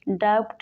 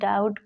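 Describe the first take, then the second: First: The b sound is pronounced before the t. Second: The b sound is silent before the t. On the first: The speaker calls it wrong. "इसको डाउट नहीं" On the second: The speaker calls it right. "डाउट पढ़ते हैं"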